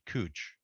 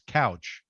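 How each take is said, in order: First: The vowel sounds like the one in 'moon'. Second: The vowel sounds like the one in 'cow'. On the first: This is the local pronunciation. "in Portland they pronounce it cooch" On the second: This is how most people would read the spelling. "most normal people would pronounce couch"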